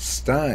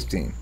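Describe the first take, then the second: First: The vowel sounds like 'eye'. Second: The vowel sounds like 'ee'. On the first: This matches how the name is spelled. "It's spelled like it should be pronounced Stein" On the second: This is how many people actually say it. "I say Steen"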